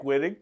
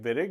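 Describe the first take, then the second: First: The name is read the English way, as spelled. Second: The name is said the German way. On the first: This is how the name looks in writing. "Looks like Wittig" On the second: This is how the name is actually pronounced. "pronounced like Wittig, obviously a German individual"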